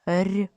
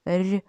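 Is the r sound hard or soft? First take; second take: soft; soft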